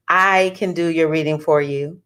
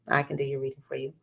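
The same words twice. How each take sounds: First: Said in the usual way. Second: Quick, much softer repeat; quiet aside. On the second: Real, not acted. Astrologer offering viewers a reading, quiet aside. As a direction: toss it off low and fast.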